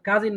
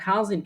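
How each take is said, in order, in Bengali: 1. প্রথম ব্যঞ্জনটি সাধারণ, অ্যাসপিরেটেড নয় এমন k। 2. প্রথম ব্যঞ্জনটি অ্যাসপিরেটেড kh। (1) "কাজিন না"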